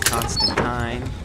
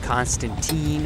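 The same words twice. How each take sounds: First: The name is said the English way. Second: The name is said the American way. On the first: The speaker calls it right. "instead of Constantine" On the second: The speaker calls it wrong. "incorrectly called him Constantine"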